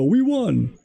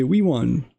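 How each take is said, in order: First: High, mock-triumphant "We won"; mock gloating cheer. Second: Said in the usual way. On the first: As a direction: sneer at them by squealing "We won". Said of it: "your base to look at and go". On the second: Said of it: "the Trump side will look at that and say".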